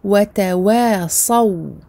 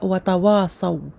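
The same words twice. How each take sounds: First: The t and w sounds are light and thin. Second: The t and w sounds are heavy and emphatic. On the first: The speaker calls it right. "le ta et le waw et les waw sont amincis" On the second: The speaker calls it wrong. "on ne dit pas wa tawasaw"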